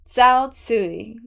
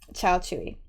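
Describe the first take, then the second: First: The name is said with Mandarin-like sounds. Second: The name is said with Korean-like sounds. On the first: "my best pronunciation that I can give, as close to the Mandarin" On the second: "That's how they say it in Korean"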